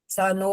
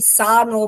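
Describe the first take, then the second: First: The first vowel is kept short. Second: The first vowel is drawn out long. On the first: The speaker calls it right. "स नो है।" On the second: The speaker calls it wrong. "शुरू में ही सा नो बोला है, सा नहीं है"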